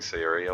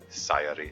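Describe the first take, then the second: First: The stress is not on the first syllable. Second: The stress is on the first syllable. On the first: The speaker calls it wrong. "I've been really lazy about pronouncing Sayori's name" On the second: The speaker calls it right. "the emphasis on the first syllable"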